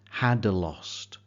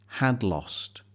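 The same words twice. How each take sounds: First: The first consonant is strong and clearly separated. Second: The two consonants blend smoothly into each other. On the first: The speaker calls it wrong. "avoid making the first consonant too strong" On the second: The speaker calls it right. "try to blend the two consonants together"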